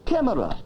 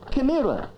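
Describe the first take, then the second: First: The stress falls on the usual syllable. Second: The stress falls on an unusual syllable. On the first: The speaker calls it right. "instead of" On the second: The speaker calls it wrong. "silly things like"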